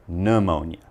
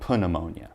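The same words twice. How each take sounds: First: No P sound is heard at the start. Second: A P sound is heard at the start. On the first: The speaker calls it right. "The P is silent" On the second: The speaker calls it wrong. "don't say pneumonia"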